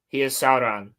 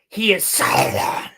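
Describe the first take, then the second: First: The R in Sauron is plain, not rolled. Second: The R in Sauron is strongly rolled. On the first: The speaker calls it right. "It's not that freaking hard" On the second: The speaker calls it wrong. "they put so much pronunciation too on like on the on the rolling of the R's"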